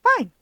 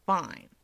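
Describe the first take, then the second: First: Fine barked much higher and louder; rough loud Fine. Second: Said in the usual way. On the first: Acted. Keigo mocking Toya's word, rough loud Fine. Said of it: "the rough pronunciation". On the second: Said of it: "Keigo repeats".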